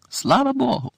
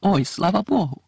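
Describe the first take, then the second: First: Pitched high, a rising cry of relief; higher relieved cry. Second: Slow, relieved cry from a distance. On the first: Mrs Weasley cries out again, higher with relief. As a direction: let the relief burst out higher. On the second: Mrs Weasley calls from the yard, a slow relieved cry. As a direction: call out in relief, drawing it out. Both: A narrator's reading. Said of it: "почули вдалині крик".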